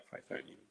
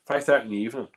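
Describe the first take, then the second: First: Whispered under his breath, far softer. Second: Said in the usual way. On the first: Shown as a demonstration. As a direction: breathe the words out as an aside. Repeats the comment under his breath.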